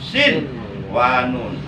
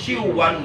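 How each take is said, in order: First: The n sound is pronounced clearly. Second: The n sound is merged into the next sound. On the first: The speaker calls it right. "harus dibaca jelas nun matinya" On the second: The speaker calls it wrong. "Nggak boleh nun matinya diidghamkan ke wow"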